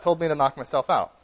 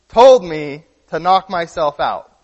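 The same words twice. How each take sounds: First: Said in the usual way. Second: "told me to knock myself out" said slowly and louder, leaning on "told"; deadpan repeat, louder and slower; slow, punched punchline. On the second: Retold or imitated. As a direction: spell the joke out slowly for someone who missed it. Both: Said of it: "his way of acting like you couldn't get the joke".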